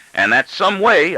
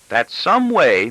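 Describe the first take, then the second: First: Much higher and louder, slow exclamation; father throwing the words back at his daughter; exclaiming father. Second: Higher, slow, petulant; teenage daughter reproving her father. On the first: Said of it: "I exclaim". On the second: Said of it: "in a petulant tone". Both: A narrator's reading.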